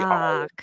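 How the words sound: The R sound in the word is dropped. The speaker calls it right. "You got to drop the R"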